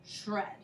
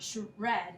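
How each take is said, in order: First: Said in the usual way. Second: "shred" as two pieces, shuh and red; split blend. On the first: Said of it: "it's shred". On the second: Shown as a demonstration. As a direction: slowly break "shred" after the sh. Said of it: "It's not shred".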